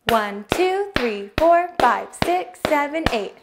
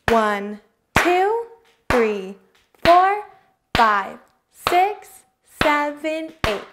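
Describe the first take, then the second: First: The numbers are counted at a fast pace. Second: The numbers are counted at a slow pace.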